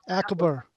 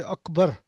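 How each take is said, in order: First: Akbar with the "a" of "cat"; anglicized first vowel in Akbar; westernized pronunciation. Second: Akbar opening with a short "uh" vowel; unwesternized first vowel in Akbar; Arabic pronunciation. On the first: Retold or imitated. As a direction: say Akbar as "ACK-bar". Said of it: "That's westernized". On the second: Shown as a demonstration. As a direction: say Akbar as "UK-bar". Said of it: "They don't say Akbar".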